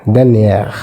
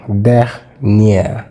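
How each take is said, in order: First: Said in the usual way. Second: "Dernier" as two parts, der, pause, nier; split into syllables. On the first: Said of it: "Likewise in dernier". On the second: Shown as a demonstration. Teacher showing there are two syllables here, syllable by syllable. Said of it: "There are two syllables here".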